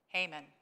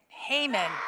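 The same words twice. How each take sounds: First: The name is said plainly, without strong feeling. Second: The name is said with strong, scornful feeling.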